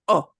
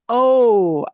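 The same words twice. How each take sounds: First: A short, tight Spanish o vowel. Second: An English-style o vowel. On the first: The speaker calls it right. "This letter is always pronounced O" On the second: The speaker calls it wrong. "and not O. Oh, English loves to do the O"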